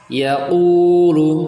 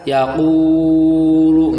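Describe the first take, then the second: First: The long vowel is held only briefly. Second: The long vowel is drawn out far too long. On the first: The speaker calls it right. "hanya diayun saja" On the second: The speaker calls it wrong. "nggak boleh, ini terlalu panjang"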